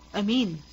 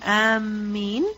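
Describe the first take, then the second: First: The m sound is single and short. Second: The m sound is doubled and held. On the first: It means trustworthy. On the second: It means those who are intending.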